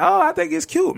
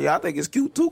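First: Very high, squeaky mimicry; mock naive gushing. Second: Feigned agreement. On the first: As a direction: put on a high falsetto of someone finding it cute. Mimics others' naive reaction. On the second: Acted. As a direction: play along as if you agree, setting a trap. Contrasts own reaction with theirs.

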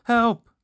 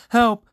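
First: Second loud, high cry for help; yell. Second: High, loud cry for help; yell. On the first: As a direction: keep yelling for help. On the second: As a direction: shout for help in terror. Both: A narrator's reading. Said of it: "and he yelled".

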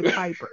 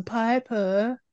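First: Said in the usual way. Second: "Piper" with the final r dropped; odd name pronunciation. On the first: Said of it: "you said Piper before". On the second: Retold or imitated. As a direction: say "Piper" as a mimicked Pie-puh. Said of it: "Why are you saying Piper?".

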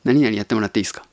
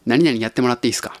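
First: Rattled off fast, light and offhand; 何々やってもらっていいですか said fast in full voice; quick casual request. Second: Quick whispered ask, no voice; 何々やってもらっていいですか whispered quickly; whispered request. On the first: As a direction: toss the favor out quickly in voice. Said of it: "みたいな言い方". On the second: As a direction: breathe the favor out fast and unvoiced. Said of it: "お願いするときに". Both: Retold or imitated.

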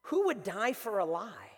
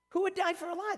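First: Slow, with a falling end; measured rhetorical question. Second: High-pitched, rising at the end; incredulous question. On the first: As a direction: put the question slowly, let it fall. Rhetorical question, then repeated. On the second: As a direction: repeat it high, as if it's absurd. Same question repeated in disbelief. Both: Shown as a demonstration.

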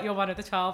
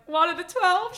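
First: Said in the usual way. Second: High, loud rising question; re-enacted hopeful squeak of a question; retold hopeful question. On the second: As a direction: ask it eagerly, pitched right up. Acting out her hopeful answer.

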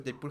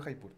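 First: "Jaipur" starting with a Y sound, like "Yaipur". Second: "Jaipur" starting with a jota, like "Haipur"; J as Spanish jota. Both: Shown as a demonstration. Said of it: "Yo digo Jaipur".

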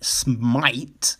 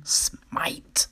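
First: Said in the usual way. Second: "smite" whispered, unvoiced. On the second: Shown as a demonstration. Correcting spite to smite in a whisper. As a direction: breathe the word "smite" as a whisper. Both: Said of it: "when I say spite, smite".

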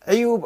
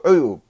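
First: عيوب said 'iyub; عيوب starting with "'i"; with kasra. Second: عيوب said 'uyub; عيوب starting with "'u"; with damma. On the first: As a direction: spread the first vowel of عيوب to i. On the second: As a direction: round the first vowel of عيوب to u. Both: Shown as a demonstration. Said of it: "بالضم والكسر".

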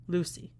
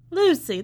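First: Said in the usual way. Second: Sudden high, loud burst of recognition; delighted recall. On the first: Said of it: "that's right". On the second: Acted. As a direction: snap your fingers, that's the one.

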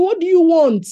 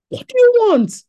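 First: Loud booming question; 1 mock God voice. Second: Higher, louder booming question; 1 God's voice. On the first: Preacher voicing God asking Solomon, loud and booming. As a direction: boom it out as God. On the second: Acted. Preacher repeating God's question to Solomon, higher and louder. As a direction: call it out as God, even bigger. God asking Solomon again.

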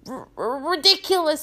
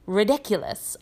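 First: High stammered squeak; Neville. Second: Almost lazy, offhand spell; Professor Lupin. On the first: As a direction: squeak it out, tripping on the first sound. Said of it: "squeaked Neville". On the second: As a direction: say it casually, with no effort. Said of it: "almost lazily". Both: A narrator's reading.

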